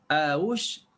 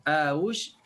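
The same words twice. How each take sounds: The two takes are said the same way.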